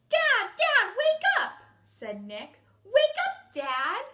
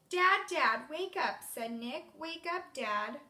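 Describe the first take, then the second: First: It is read in Nick's character voice. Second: It is read in a plain reading voice.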